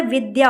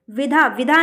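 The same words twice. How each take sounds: First: Said in the usual way. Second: विधा said "vidha", without a y glide; wrong pronunciation. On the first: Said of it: "विद्या होता है". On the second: Shown as a demonstration. Teacher shows the wrong form, mispronounced without y. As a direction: drop the y, saying विधा. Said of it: "विधा नहीं होता है".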